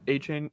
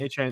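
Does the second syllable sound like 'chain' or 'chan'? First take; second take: chain; chan. First: The second syllable sounds like 'chain'. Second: The second syllable sounds like 'chan'. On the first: The speaker calls it wrong. "A Chain or not A Chains" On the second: The speaker calls it right. "Pronounce it right"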